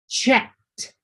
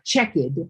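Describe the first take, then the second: First: The ending is a clear T sound. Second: The ending is not a T sound. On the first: The speaker calls it right. "All of these have the pronunciation sound of a T at the end" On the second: The speaker calls it wrong. "It's not checked"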